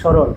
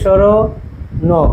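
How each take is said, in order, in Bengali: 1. শব্দটি মসৃণভাবে বলা হয়, শেষে একটু ধাক্কা দিয়ে। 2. শব্দটি শেষ ধ্বনির আগে ভেঙে বলা হয়। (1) "সবার শেষে ধাক্কা" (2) "এভাবে বলি না"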